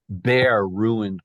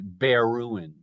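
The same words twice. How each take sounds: First: The stress falls on bare as well. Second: The stress falls on ruined, not bare. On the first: The speaker calls it right. "there has to be a metrical substitution there" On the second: The speaker calls it wrong. "You can't read it bare ruined"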